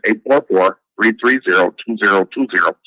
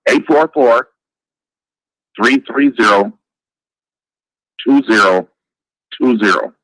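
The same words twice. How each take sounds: First: The number is said fast. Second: The number is said slowly.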